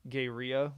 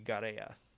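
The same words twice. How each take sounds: First: The name is said with an English pronunciation. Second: The name is said with a Spanish pronunciation. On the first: The speaker calls it wrong. "which I think I was saying" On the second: The speaker calls it right. "the Spanish pronunciation would be Garea"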